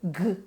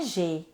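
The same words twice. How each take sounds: First: The consonant is a hard g sound. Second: The consonant is a soft zh sound. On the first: This is the letter's own sound. The speaker calls it right. "O som do G é G" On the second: This is the sound that belongs to another letter. The speaker calls it wrong. "o som do G não é G ... é o J, o som do J"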